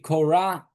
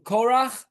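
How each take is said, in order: First: The name ends with a softer English sound. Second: The name ends with a Hebrew throat sound. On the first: "it would either be Korah" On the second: "in Hebrew Korach"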